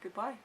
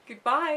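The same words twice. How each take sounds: First: Said in the usual way. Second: Goodbye higher and louder, rising; a loud, sing-song movie goodbye; quoting film character. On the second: Pretend. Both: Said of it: "That weird wave he does".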